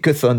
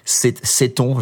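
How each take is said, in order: First: The name is said with an English pronunciation. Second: The name is said with a French pronunciation. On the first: "Cuthon en anglais" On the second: "je ne sais pas comment on le prononce en français"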